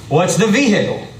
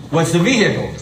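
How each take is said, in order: Both takes have the same delivery.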